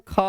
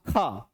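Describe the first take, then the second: First: "ख" pulled long with extra air; drawn-out aspirate. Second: "ख" said low without drawing it out; short, no resonance. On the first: Teacher showing students how to pull the sound, "ख" drawn out. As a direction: stretch out "ख", pushing breath through it. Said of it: "थोड़ा खींच के बोलते हैं". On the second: Teacher showing an unvoiced letter, "ख" kept unstretched. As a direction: let "ख" fall away without a ringing tail. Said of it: "इसमें भी साउंड नहीं खींचा". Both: Shown as a demonstration.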